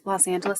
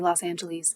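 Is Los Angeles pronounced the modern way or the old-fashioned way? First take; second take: modern; old-fashioned. First: It uses the usual modern pronunciation. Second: It uses an older, dated pronunciation. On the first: "every time I read" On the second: "that's how my grandfather used to pronounce it"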